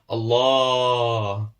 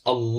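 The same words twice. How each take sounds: First: The long vowel is stretched out very long. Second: The long vowel is held for only two counts. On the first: The speaker calls it wrong. "we often tend to prolong it much longer" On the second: The speaker calls it right. "just try and pull it for two counts"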